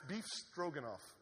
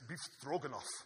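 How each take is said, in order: First: It is said in the speaker's ordinary accent. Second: It is said in a put-on foreign accent.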